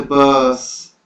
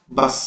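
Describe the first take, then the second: First: "बस" slow, with a long stretched vowel; intonation variant. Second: "बस" short, vowel not stretched; intonation variant. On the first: Teacher showing meaning changes with tone, long drawn "बस". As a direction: draw out the middle of "बस". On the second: Teacher showing meaning changes with tone, short "बस". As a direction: say "बस" briefly in one beat. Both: Shown as a demonstration. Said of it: "अर्थ प्रसंग और प्रयोग की".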